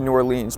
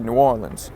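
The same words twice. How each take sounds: First: It is said in the speaker's usual accent. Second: It is said in a put-on Southern accent. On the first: This is how outsiders say the name. "we say New Orleans" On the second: This is how locals say the name. "you guys say New Orleans ... My bad for the awful Southern accent"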